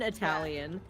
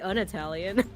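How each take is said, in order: First: The first word is said with an 'a' vowel. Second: The first word is said with an 'uh' vowel. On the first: "I guess you can pronounce it an" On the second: "I say un-Italian, which I guess sounds like not Italian"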